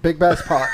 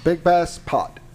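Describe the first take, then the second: First: It is said fast. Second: It is said at normal speed.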